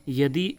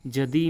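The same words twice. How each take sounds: First: यदि starting on Y; Y glide opening यदि; correct pronunciation. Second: जदि starting on J; J sound opening जदि; incorrect pronunciation. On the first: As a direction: say यदि as "yadi". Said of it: "यदि उसका शुद्ध रूप हो जाता है". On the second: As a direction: say जदि as "jadi". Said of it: "यदि उसका शुद्ध रूप". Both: Shown as a demonstration.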